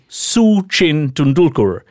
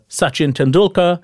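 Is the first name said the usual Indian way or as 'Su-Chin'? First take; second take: Su-Chin; usual. First: The first name is said as 'Su-Chin'. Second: The first name is said the usual Indian way. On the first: "he pronounced it as Su-Chin Tendulkar" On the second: "the great Indian cricketer Sachin Tendulkar"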